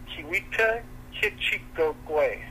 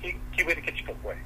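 First: The name is said slowly. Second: The name is said quickly.

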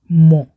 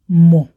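First: The word has its stand-alone pronunciation. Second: The word has its stand-alone pronunciation.

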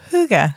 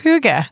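First: The word begins with a softer h sound. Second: The word begins with a strong h sound.

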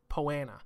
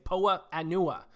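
First: It is run together as one word. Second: It is said as two separate words. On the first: The speaker calls it right. "it's just kind of pronounced Poana" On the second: The speaker calls it wrong. "I want to always say Poa Anua"

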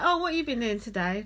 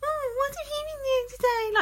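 First: It is said in a fairly natural voice. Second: It is said in an exaggerated, over-the-top voice.

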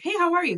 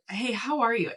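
First: It is asked quickly, as casual small talk. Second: It is asked sincerely, with real interest.

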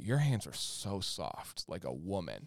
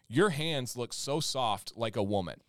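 First: It is read in a flirtatious, seductive tone. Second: It is read in a plain, neutral tone.

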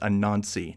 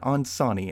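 First: The middle syllable begins with an n sound. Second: The middle syllable begins with an s sound. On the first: The speaker calls it right. "the name of the spider god is Anansi" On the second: The speaker calls it wrong. "not Ansani, as I start off with"

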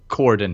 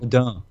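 First: The word is pronounced with an English sound. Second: The word is pronounced with a French sound. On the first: The speaker calls it wrong. "If you want to pronounce things wrong, then go ahead and pronounce it" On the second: The speaker calls it right. "if you want to pronounce it right, you say cordon"

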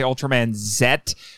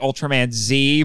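First: The letter Z is pronounced 'zed'. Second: The letter Z is pronounced 'zee'. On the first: This is the name for the letter outside the United States. "they say Ultraman Z, because outside of the United States, the last letter of the English alphabet is called Z" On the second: This is the United States name for the letter. "I want to say Ultraman Z"

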